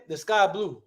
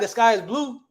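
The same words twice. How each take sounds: First: Easy colloquial "sky blue", no IS; casual everyday talk. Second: Higher-pitched, mock-proper full sentence; proper speech. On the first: Teacher showing the class how we talk, casual. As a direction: toss it off like everyday chat. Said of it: "That's how we say it". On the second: Teacher showing how we don't talk, mock proper. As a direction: say it properly, with the IS put in. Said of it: "it's probably the proper way to talk". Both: Shown as a demonstration.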